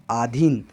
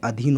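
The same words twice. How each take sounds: First: "आधीन" with a long aa at the start; "आधीन" said with a long आ, as the mistake; wrong long vowel. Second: "अधीन" with a short a at the start; "अधीन" said with a short अ, as the correct form; correct short vowel. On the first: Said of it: "आधीन नहीं होता है". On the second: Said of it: "अधीन होता है". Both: Shown as a demonstration.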